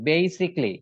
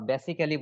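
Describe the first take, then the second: First: The first syllable has a 'bay' sound. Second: The first syllable does not have a 'bay' sound. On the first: The speaker calls it right. "বেই, ... উচ্চারণটা খেয়াল করবেন সবাই" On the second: The speaker calls it wrong. "বেসিকলি এরকম বলি বা বেসিক্যালি বলি, একটাও না।"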